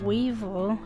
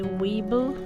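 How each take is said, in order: First: The middle consonant is a v sound. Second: The middle consonant is a b sound. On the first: This is the standard English pronunciation. The speaker calls it right. "instead of weevil" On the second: This is how it is said in Belizean Creole. The speaker calls it wrong. "we would say weeble"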